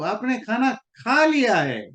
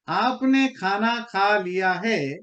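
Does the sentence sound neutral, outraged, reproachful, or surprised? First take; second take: surprised; neutral. First: It is said in a surprised, realizing tone. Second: It is said in a plain, neutral statement tone. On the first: The speaker just learns the eating already happened. "ओ अच्छा, you have already done." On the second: The listener has simply eaten. "इसका simple मतलब यही है कि आपने खाना खा लिया"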